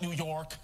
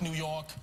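First: The R in York is pronounced. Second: The R in York is dropped. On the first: The speaker calls it wrong. "It's not New York" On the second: The speaker calls it right. "We don't pronounce our R's. Just skip the R always"

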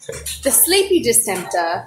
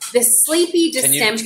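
First: It is said in a British accent. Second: It is said in the speaker's usual accent.

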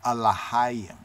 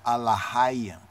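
The two takes are said the same way.

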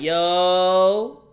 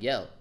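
First: It is a yo in a New York style. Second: It is an ordinary, plain yo. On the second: "When you say yo regularly, it's just like yo"

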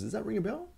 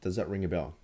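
First: It is said with varied, lively tonality. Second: It is said in a flat, monotone voice.

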